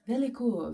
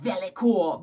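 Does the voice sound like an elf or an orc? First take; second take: elf; orc. First: It is spoken in a put-on elf voice. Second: It is spoken in a put-on orc voice. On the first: "you could also say it like an elf" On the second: "I want to say it like I'm an orc from Mordor"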